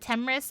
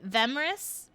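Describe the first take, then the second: First: The name begins with a plain t sound. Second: The name begins with a th sound. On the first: "Is it Temris?" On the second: "Do I pronounce the the the?"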